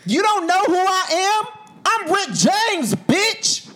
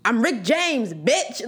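First: High, loud, slow screaming celebrity brag; drawn-out hammed-up yell of the name; loud singer's yell. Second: A near-plain casual quote of the line; understated singer impression, no yelling; a singer's catchphrase. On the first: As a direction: yell it like a shouting superstar. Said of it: "That is not how he said it". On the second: Retold or imitated. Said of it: "that's how he said it".

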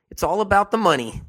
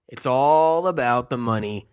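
First: The whole line pitched much higher and louder; emphatic high. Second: "all" leaned on, near usual pitch; stress on all. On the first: To viewers, hammering home the money motive, pitched high and loud. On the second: To viewers, repeating the money point, "all" stressed. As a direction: lean on "all", keep the rest level. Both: Shown as a demonstration. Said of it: "I'm gonna say it over and over again".

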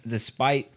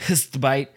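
First: Said in the usual way. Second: "despite" garbled with a hissy slip into "bite"; mispronounced "despite". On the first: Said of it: "I was gonna say". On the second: Shown as a demonstration. Reader owning up to a slip, "despite" garbled as "st-bite". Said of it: "'cause the H".

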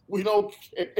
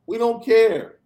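First: Said through a laugh; laughing while dismissing a trolling fan. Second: Said in the usual way. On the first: Real, not acted. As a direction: let the laugh spill into the words.

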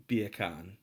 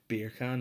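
First: Beer can said as Jamaican "bacon"; Jamaican accent. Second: Said in the usual way. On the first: Shown as a demonstration. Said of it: "bacon in a Jamaican accent". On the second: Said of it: "beer can in an English accent".

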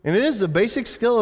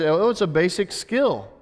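First: "is" punched with a high pitch; stress on IS. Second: Offhand quote of common opinion; casual dismissal. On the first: Real, not acted. Preacher affirming waiting as a skill, high stress on "is". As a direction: lift "is" sharply to affirm it. Preacher counters the dismissive quote. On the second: Retold or imitated. Preacher voicing how people see waiting today, offhand. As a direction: toss it off as no big thing. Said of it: "We look at this today as".

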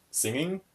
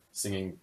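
First: "singing" pitched high and rising; high rising lilt on "singing"; high questioning. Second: Said in the usual way. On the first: Shown as a demonstration. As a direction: lift "singing" way up into a playful question. Repeats word in raised voice.

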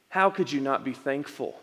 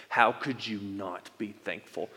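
First: Soft, patient and loving; gentle question. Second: Put-on lightly scolding, as a parent to a kid; a mild hint of a parent's reproach. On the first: Retold or imitated. God gently asking Nick, softly and tenderly. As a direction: ask it tenderly, not scolding. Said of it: "I don't believe Jesus was scolding me". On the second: Shown as a demonstration. Pastor demoing the tone God did not use, mildly scolding. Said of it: "in this tone of voice".

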